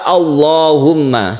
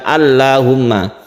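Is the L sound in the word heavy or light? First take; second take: heavy; light. First: The L is pronounced thick and heavy. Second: The L is pronounced thin and light. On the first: The speaker calls it right. "seperti itu" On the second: The speaker calls it wrong.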